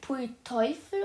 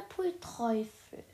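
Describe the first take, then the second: First: "Teufel" said the usual way, T straight into the vowel; Teufel without R. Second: "Teufel" said as "Treufel", R added after the T. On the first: Reader checks for a misprint, "Teufel" without R. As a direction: say "Teufel" with no R after the T. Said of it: "wollte sie Pfui Teufel oder". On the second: Reader checks for a misprint, "Teufel" said as "Treufel". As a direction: slip an R in, making "Teufel" into "Treufel". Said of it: "Teufelkäse ist auch ein". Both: Shown as a demonstration.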